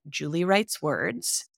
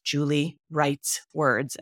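First: The phrase is said quickly. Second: The phrase is said slowly and clearly.

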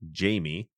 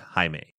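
First: The name is pronounced the English way. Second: The name is pronounced the Spanish way. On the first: This is how English speakers say the name. "In English, you'd pronounce it Jamie" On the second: This is how Spanish speakers say the name. "that name in Spanish is pronounced Jaime"

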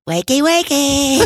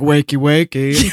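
First: It is said in a baby voice. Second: It is said in a plain voice.

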